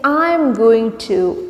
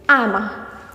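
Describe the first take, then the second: First: 'I'm going to' is pronounced fully, every word clear. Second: 'I'm going to' is reduced to 'I'm a'. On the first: "instead of saying I'm going to" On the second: "you can say I'm a"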